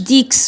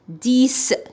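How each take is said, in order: First: The final x is pronounced as ks. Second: The final x is pronounced as s. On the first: The speaker calls it wrong. "ما نقولوش ديكس" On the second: The speaker calls it right. "الإكس سو برونونس إس"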